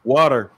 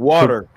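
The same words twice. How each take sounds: First: It is said in an American accent. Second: The same.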